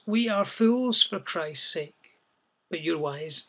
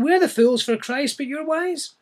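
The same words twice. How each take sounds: First: Said in the usual way. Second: Higher, tongue-in-cheek jab at "wise"; gently mock the proud listeners, pitched up; a hint of sarcasm, higher on "wise"; slight sarcasm. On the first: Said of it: "maybe a little tongue-in-cheek there". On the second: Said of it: "maybe slight sarcasm".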